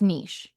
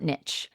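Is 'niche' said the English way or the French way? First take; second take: French; English. First: The word is pronounced the French way. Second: The word is pronounced the English way. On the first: The speaker calls it right. "it's niche. ... It's a French word" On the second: The speaker calls it wrong. "It's not niche"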